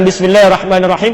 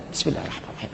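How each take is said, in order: First: It is recited loudly, out loud. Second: It is recited softly, not aloud.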